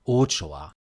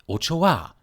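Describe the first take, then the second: First: The stress falls before the last syllable. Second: The stress is on the last syllable. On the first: The speaker calls it wrong. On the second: The speaker calls it right. "A is the strongest vowel here, hence that's where the stress goes"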